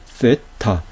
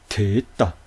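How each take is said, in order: First: The word begins with a th sound. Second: The word begins with a plain t sound. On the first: This follows the Erasmian pronunciation most scholars use today. "이 됐다를 쓰로 발음하죠. 쓰, 세타 이렇게 발음하죠" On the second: This follows the original ancient Greek pronunciation. "트라고 발음되니 됐다"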